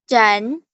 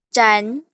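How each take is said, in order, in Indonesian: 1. Nadanya naik dari sedang ke tinggi. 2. Nadanya naik dari sedang ke tinggi.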